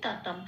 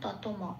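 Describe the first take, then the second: First: The final m is cut short, without a vowel. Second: The final m is pronounced fully, with a vowel. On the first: The speaker calls it right. "অক্ষরের উচ্চারণটা অর্ধ উচ্চারণ হয়" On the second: The speaker calls it wrong. "ততম হলে পূর্ণ ম হয়ে যেত"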